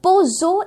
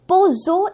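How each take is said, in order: First: It is said as two syllables, po-zho. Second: It is said as two syllables, po-zho.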